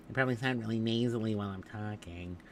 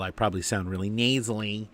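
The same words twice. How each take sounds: First: Softer, exaggerated nasal voice; nasally. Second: Said in the usual way. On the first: Shown as a demonstration. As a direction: play up a stuffed-up nose from a cold.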